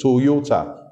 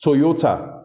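First: "Toyota" in three distinct beats, To-yo-ta; syllable by syllable. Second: Said in the usual way. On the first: Shown as a demonstration. Host showing listeners a three-syllable brand name, syllable by syllable. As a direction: count out each syllable of "Toyota". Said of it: "three syllables". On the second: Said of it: "is three syllables".

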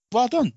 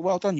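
First: High, punchy praise that lands as sarcasm; sarcastic-sounding. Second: Softened, earnest congratulation; sincere praise. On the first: Podcaster praising a film studio, unintentionally sarcastic-sounding. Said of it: "that sounds sarcastic". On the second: Podcaster correcting a sarcastic-sounding compliment to the studio, sincere praise. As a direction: praise restated less pointedly, still pitched high. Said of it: "and that sounds sarcastic, but". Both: Real, not acted.

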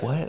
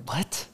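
First: Soft, curious rising question; didn't-hear-you what. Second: Higher, very soft incredulous question; disgusted-sounding what. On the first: Nephew who didn't hear the question, curious what. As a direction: ask softly, as if you missed it. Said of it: "more of like a, "I didn't hear you". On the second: Trying to be curious at dinner, disgusted-sounding what. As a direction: let curiosity come out sounding offended. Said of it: "my face was like". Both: Shown as a demonstration.

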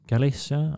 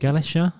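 First: "Galicia" with a plain s sound, tentative; unsure s pronunciation. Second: "Galicia" with a sh sound, rising like a question; unsure sh pronunciation. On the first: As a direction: try "Galicia" as ga-LISS-a, unsure. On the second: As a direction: try "Galicia" as ga-LISH-a, questioning. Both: Shown as a demonstration. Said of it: "what does that say?".

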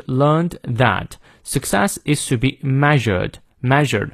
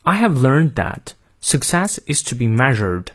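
First: Slow British reading, r silent in "learned" and "measured"; non-rhotic British "learned" and "measured"; British accent. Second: American "learned" and "measured" with the r sounded; American accent. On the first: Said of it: "看一下英式发音". (英式发音慢读，元音后的r不念) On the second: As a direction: rhotic American model reading. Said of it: "最后再练一遍美音". (美音领读，念出元音后的r) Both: Shown as a demonstration.

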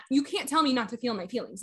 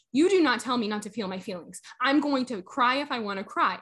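First: Retold objection, held back from lashing out; restrained retort. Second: Emphatic word-by-word retold retort; firm retort. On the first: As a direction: object evenly, without lashing out. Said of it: "didn't try to lash out at her". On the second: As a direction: lay down the law to a coworker. Retold standing up to coworker.

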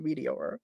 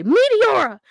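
First: A low, soft murmured imitation of the commentator's call; hushed echo of the announcer call; quiet Michael Cole. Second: Loud, high commentator call of the move; booming announcer shout of the finisher; Michael Cole call. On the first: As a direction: say the move name softly to yourself, lower and softer. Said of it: "I can hear his voice, Michael Cole's voice, going". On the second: Retold or imitated. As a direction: belt the move name like a play-by-play announcer. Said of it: "I could hear Michael Cole in my head say".

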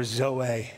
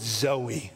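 First: "zoe" said zoh-AY; alternative pronunciation. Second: "zoe" said ZOH-ee; first pronunciation variant. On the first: Preacher offering the other reading, "zoe" said zoh-AY. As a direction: say "zoe" ending in ay. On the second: Preacher revealing the key Greek word, "zoe" said ZOH-ee. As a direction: say "zoe" ending in ee, like the name. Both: Shown as a demonstration. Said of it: "or zoe".

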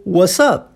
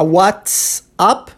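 First: "what's up" as "wassup", no T at all; T dropped. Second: "what's up" with the T clearly sounded before the S; full T-S pronunciation. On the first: Teacher showing the relaxed form, T dropped. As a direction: forget the T in "what's up", just the S. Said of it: "esqueço que o T existe". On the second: Teacher showing what not to say, T fully sounded. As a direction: articulate "what's up" fully as "whats-up". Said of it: "Ao invés de falar". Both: Shown as a demonstration.

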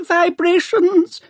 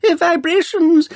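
First: Put-on very high, slow whining old man, rising; a fussy old scholar's high whine, rising; Doctor Arkengarth whine. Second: Put-on very high, slow whining old man, falling; a fussy old scholar's high whine, dropping; Doctor Arkengarth whine. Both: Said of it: "reedy voice of old Doctor Arkengarth whine".

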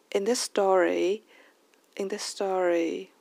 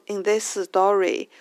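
First: "in this story" with light "in", lifted stress, linked words; raised stress, linked. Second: Slow "in this story", each word weighted; unlinked learner English. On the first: Teacher redoes the earlier sentence, stressed and linked. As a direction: lift the stress in "in this story" and let the rest go light. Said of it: "把它前面重读的音节把它升上". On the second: Host shows how people generally speak, word-by-word English. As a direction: give every word in "in this story" its own beat. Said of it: "people generally speak like this". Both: Shown as a demonstration.

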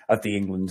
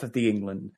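First: Lower-pitched northern English accent; Game of Thrones northern accent. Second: Said in the usual way. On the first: Real, not acted. Northerner catching his own slip to co-host, in Game of Thrones northern accent. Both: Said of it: "sound like I'm on Game of Thrones".

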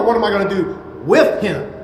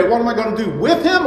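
First: WITH held back, then punched; pause, then hit the word "with"; stress on WITH. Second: Quick question landing on HIM; stress on HIM. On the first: Preacher contrasting two ways to look at this, stress on "with". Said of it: "Let me stress that word". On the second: Preacher contrasting two ways to look at this, stress on "him". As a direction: rattle it off, weight on "him". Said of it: "there's two ways to look at this". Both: Shown as a demonstration.

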